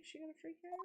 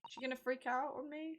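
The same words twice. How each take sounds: First: Much softer, worried murmur; muttered under breath. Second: Said in the usual way. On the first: Real, not acted. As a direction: mutter it nervously to yourself.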